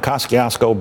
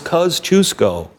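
First: The first syllable does not sound like 'cuz'. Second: The first syllable sounds like 'cuz'. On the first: The speaker calls it wrong. "they'd say, that's traffic on the Kosciuszko Bridge" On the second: The speaker calls it right. "no, it's Kosciuszko"

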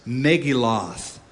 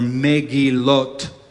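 First: The word is said with an American pronunciation. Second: The word is said with a Hebrew pronunciation. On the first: "Americanizing it on purpose" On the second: "is the Hebrew pronunciation"

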